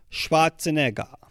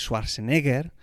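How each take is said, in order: First: The name is pronounced with German sounds. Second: The name is pronounced with Spanish sounds. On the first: The speaker calls it right. "si lo hacemos bien" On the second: The speaker calls it wrong. "no digáis Schwarzenegger porque queda muy feo"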